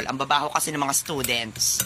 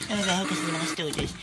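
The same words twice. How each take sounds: First: Said in the usual way. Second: Mock the teacher under your breath; sneering echo in a put-on voice; mocking mimicry. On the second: Student parrots the teacher's complaint.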